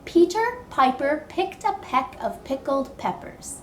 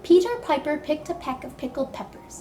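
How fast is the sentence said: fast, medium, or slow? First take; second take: medium; fast. First: The sentence is spoken at a moderate speed. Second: The sentence is spoken quickly. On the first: "but a little bit faster"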